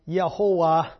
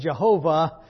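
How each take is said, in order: First: The name begins with a Y sound. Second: The name begins with a J sound. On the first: "something that is more or less Yehovah" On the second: "if you don't know how to pronounce a J, becomes Jehovah"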